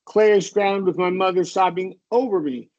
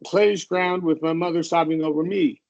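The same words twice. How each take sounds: First: The pitch falls at the end of the line. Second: The pitch rises on the last word. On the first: It is a statement. The speaker calls it right. "we're only going to end on the last word on an up pitch if it's a question. So this one would be" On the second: It sounds like a question. The speaker calls it wrong. "You said clayish, ... and we don't want to do that"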